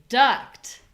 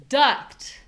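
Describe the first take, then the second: Both takes have the same delivery.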